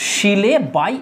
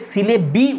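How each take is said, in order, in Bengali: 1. শেষ অক্ষরটি 'bye'-র মতো শোনায়। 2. শেষ অক্ষরটি 'bee'-র মতো শোনায়। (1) "এটাই উচিত করা" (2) "সিলে বি উচ্চারণ করো না"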